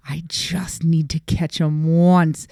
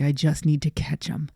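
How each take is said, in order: First: Slow, hushed determination; intent stage whisper. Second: Said in the usual way. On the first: Retold or imitated. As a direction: draw it out like a secret resolve. Repeats resolve slowly, hushed, intent.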